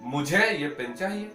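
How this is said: The stress is on the word मुझे. It answers who wants the pen. "किसी ने पूछा कि भाई किसे ये पेन चाहिए"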